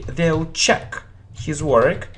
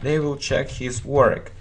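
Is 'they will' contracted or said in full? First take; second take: contracted; full. First: 'They will' is contracted to one syllable, 'they'll'. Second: Both words 'they will' are said in full. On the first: "short form... It sounds very natural" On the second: "a long form"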